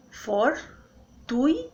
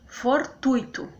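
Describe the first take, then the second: First: "Fortuito" as for-tui-to, very slowly; syllable by syllable. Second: Said in the usual way. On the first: Shown as a demonstration. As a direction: keep tui together in Fortuito, pauses either side. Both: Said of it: "o U fica junto com o I".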